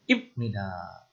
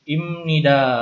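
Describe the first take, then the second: First: The consonant before nida is a b sound. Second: The consonant before nida is an m sound. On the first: The speaker calls it wrong. "Jadi tidak dibaca" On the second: The speaker calls it right. "B ini mengikuti luluh menjadi bunyinya M"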